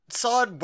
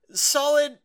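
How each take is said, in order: First: Said in the usual way. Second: Solid said very high and loud, falling; stress on solid. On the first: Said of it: "repeated word, second softer". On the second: Real, not acted. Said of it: "repeated word, first emphasized".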